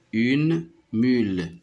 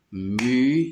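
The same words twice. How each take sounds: First: Said in the usual way. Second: Mule split into mu... le; "mule" louder, first beat held and rising; syllable by syllable. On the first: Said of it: "je dis le mot". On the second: Shown as a demonstration. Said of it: "je le frappe pour repérer le son".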